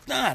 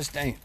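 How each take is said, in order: First: The vowel sounds like the one in 'wine'. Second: The vowel sounds like the one in 'rain'. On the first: The speaker calls it right. "It was Stein" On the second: The speaker calls it wrong. "It was never Stain"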